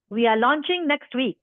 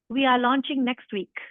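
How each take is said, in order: First: It is said in an authoritative tone. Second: It is read in a plain, neutral tone.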